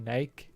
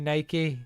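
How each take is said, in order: First: The word is said with a British pronunciation. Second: The word is said with an American pronunciation. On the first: "in the U K we say Nike" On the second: "Americans do say Nike"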